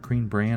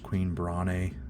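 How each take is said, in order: First: The name has a short 'a' vowel, like 'bran'. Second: The name has a long 'ay' vowel, like 'brain'. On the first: The speaker calls it wrong. "I always just pronounced it as Bran" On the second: The speaker calls it right. "it's probably pronounced Queen Brane"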